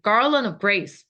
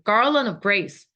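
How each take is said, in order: First: It is said quickly with 'of' squeezed in. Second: The same.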